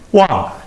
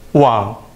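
First: The pitch falls sharply from high to low. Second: The pitch dips low then rises.

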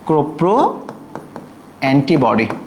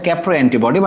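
First: The first syllable has an 'o' vowel. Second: The first syllable has an 'a' vowel. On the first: The speaker calls it right. "Right উচ্চারণটা হচ্ছে কোপ্রো" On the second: The speaker calls it wrong. "বই লেখা হচ্ছে ক্যাপ্রো antibody"

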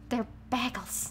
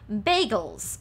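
First: The first vowel sounds like in bag. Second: The first vowel sounds like in bay. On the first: The speaker calls it right. "they come from a bag, not a bay" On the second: The speaker calls it wrong. "as in they come from a bay. This is not correct"

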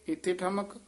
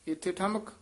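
No difference in how they are said.

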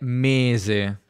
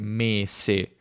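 First: The middle consonant is a voiced z. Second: The middle consonant is a voiceless s. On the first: This is the modern pronunciation. "Una pronuncia più moderna è mese" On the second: This is the traditional pronunciation. "La pronuncia tradizionale è mese"

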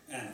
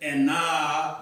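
First: The final vowel is short. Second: The final vowel is drawn out long. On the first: The speaker calls it right. "you don't pronounce that extra A. It's just Anna" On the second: The speaker calls it wrong. "You don't say and nah, like how it's spelled"

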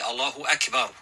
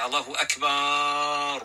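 First: No vowel is noticeably drawn out. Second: A vowel in the last word is drawn out. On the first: The speaker calls it right. "it must be said correctly" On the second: The speaker calls it wrong. "put the elongation in the word Akbar"

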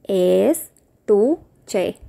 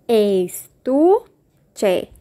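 The two takes are said the same way.

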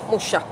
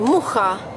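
First: The middle consonant is a sh sound. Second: The middle consonant is a throaty kh sound. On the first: This is how the name was said in France. "they pronounce as Sh" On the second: This is the native way of saying the name. "that we say Mucha, that's C-H"

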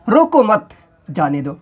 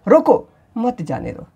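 First: The first two words run together without pause. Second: A pause and stress follow the first word. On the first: The person should not be stopped but let go. "एक साथ हमने बोला" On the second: The person should be stopped and not let go. "रोको अल्प विराम, थोड़ी देर के लिए विराम हुआ, रोको पे हमने जोर दिया"

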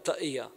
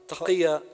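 First: The middle consonant is a glottal stop. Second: The middle consonant is a deep throaty q. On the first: "replacing the qaf sound with a glottal stop" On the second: "the sound is produced at the Adam's apple"

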